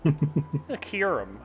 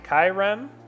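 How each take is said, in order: First: The syllables are said separately and clearly. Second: The syllables are run together into one. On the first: The speaker calls it right. "It's Kyurem" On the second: The speaker calls it wrong. "It sounds like you're saying it like like all in one"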